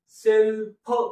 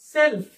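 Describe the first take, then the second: First: The word is said slowly, stressing the last sound. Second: The word is said quickly as one smooth unit. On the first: The speaker calls it wrong. "Self असं नाही करायचं" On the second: The speaker calls it right. "पटकन"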